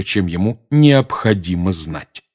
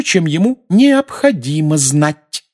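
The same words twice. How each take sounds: First: "необходимо знать" drawn out at ordinary pitch; echoed stress. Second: "необходимо знать" high, loud and drawn out; stress on last two words. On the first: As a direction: echo back "необходимо знать" slowly, pointedly, without raising the pitch. Sirius echoes her stressed words back. (медленно выделяя «необходимо знать» обычным тоном) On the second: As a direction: lean hard and slowly on "необходимо знать". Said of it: "сделав особенный упор на последние два слова". (с громким, высоким упором на «необходимо знать») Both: A narrator's reading.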